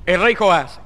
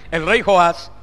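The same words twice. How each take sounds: The two takes are said the same way.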